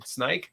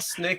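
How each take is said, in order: First: It has the eye vowel, rhyming with bike. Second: It has the short i vowel of Snickers. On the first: "It's not snike as in snike" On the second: "It's not snick as in Snickers"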